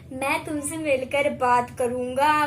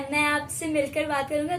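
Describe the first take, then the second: First: It is said in an angry tone. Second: It is said in a calm tone.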